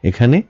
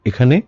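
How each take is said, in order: Both takes have the same delivery.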